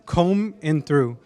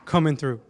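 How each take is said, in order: First: The name is said slowly, each word separate. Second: The name is said fast, words run together.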